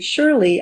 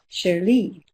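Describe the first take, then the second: First: The name is said with an American accent. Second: The name is said with a French accent. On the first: "my name with its American pronunciation" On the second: "give it a more French pronunciation"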